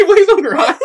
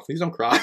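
First: Much higher, louder plea through laughter; laughing mock plea. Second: Said in the usual way. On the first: Co-host replays the plea to a crying character, laughing high. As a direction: plead in a high voice, cracking up.

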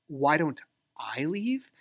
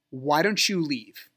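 First: Slow "Why don't I leave?", pause before a raised "I"; stress on I. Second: Slow, pointed "Why don't you leave?"; imitating an ex's drawn-out challenge; retold challenge. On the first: Retold or imitated. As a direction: throw the question back, leaning hard on "I". Retold echo, turned on himself. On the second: Retold ex ordering him out.

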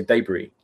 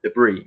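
First: "debris" as DAY-bree; British debris. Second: "Debris" as duh-BREE; American debris. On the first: Host contrasting their own version, DAY-bree. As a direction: open "debris" with a long DAY. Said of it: "We say debris". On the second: Host repeating the American version back, duh-BREE. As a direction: put the stress of "Debris" on BREE. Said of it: "You guys say debris". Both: Shown as a demonstration.

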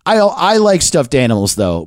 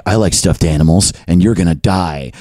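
First: Said in the usual way. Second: Low, deadpan online threat; mock threat. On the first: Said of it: "They all say just". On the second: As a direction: drop the pitch for a mock menacing troll. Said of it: "someone with no face or real name".

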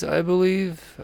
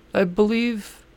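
First: Said in the usual way. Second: Rising, unsure I believe; question mark ending. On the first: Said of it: "heavy question mark accent". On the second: Shown as a demonstration. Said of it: "I say with a heavy question mark accent at the end".

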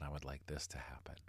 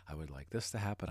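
First: Fading into a soft whisper. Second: Said in the usual way. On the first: Shown as a demonstration. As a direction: let it trail off to a whisper. Listed wish, fading last take.

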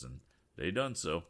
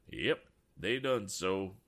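First: Said in the usual way. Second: Slow, louder drawn echo of "done so"; echoing son. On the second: A narrator's reading. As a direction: repeat "Yep, they done so" slowly like an echo. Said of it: "added Abe like an echo".

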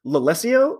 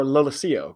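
First: Lalesio with the stress on LES; first pronunciation variant. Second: Lalesio with the stress on SI; second pronunciation variant. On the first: Podcaster asking listeners which name is correct, first variant la-LESS-io. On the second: Podcaster asking listeners which name is correct, second variant la-la-SEE-o. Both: Shown as a demonstration. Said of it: "I hear it both ways".

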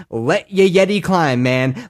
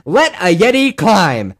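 First: Said in the usual way. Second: Louder, slow chant; rallying cry. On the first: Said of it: "repeated rallying line". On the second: Real, not acted. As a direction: proclaim it like a battle cry. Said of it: "repeated, bigger second take".

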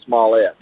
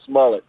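First: "smallette" with a French-style -ette ending; "smallette" with the last syllable fully sounded; sharp pronunciation. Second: "smullet" stressed on the first syllable; "smullet" with a short, weak ending; everyday pronunciation. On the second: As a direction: say "smullet" to rhyme with mullet. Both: Shown as a demonstration. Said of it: "if you wanna be sharp".

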